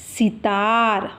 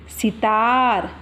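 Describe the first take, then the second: First: सितार very slow, syllables pulled apart; slower teaching word. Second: सितार drawn out slowly, each syllable clear; slow teaching word. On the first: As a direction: draw सितार out even longer for the class. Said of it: "तो हो गया". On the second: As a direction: stretch सितार for children. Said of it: "जैसे". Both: Shown as a demonstration.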